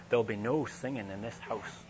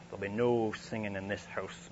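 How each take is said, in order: First: Lightly imitated Scottish maid's warning; a hint of a stern Scottish housekeeper's voice; strong Scottish accent. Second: Stern Scottish lord's warning, voiced a bit apart from his own; Scottish accent. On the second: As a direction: imitate the laird's Scottish accent, stern and firm. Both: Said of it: "with this sort of strong Scottish accent".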